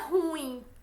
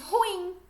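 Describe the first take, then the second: First: The stress falls on the u. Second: The stress falls on the i. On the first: The speaker calls it wrong. "não é ruim" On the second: The speaker calls it right. "Pronuncie ruim"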